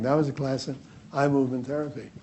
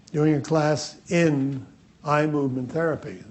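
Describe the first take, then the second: First: "was" pressed a little harder than the rest, falling at the end; stress on was. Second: Said in the usual way. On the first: Shown as a demonstration. Correcting the audience about which class it was, stressing "was". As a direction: lean on "was" to set the earlier class apart from this one. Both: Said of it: "This is a class in quantum jumping".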